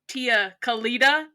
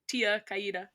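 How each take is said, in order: First: The double L is said as an L. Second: The double L is not said as an L. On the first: It sounds like an outsider saying it. The speaker calls it wrong. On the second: This is how the character himself would say it. The speaker calls it right. "We can just say it how Leo would say it"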